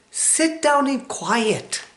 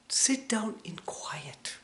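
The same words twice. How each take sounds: First: High, slow and emphatic; emphatic command. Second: Slow soft whisper. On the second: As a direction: whisper it calmly and slowly. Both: Shown as a demonstration. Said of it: "I mean quiet".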